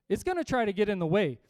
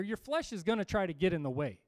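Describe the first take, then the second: First: "gonna try to get in the way" punched louder; emphatic repeat. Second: Said in the usual way. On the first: Real, not acted. Preacher warns congregation about the flesh, emphatic repeat. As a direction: hammer "gonna try" as a loud warning.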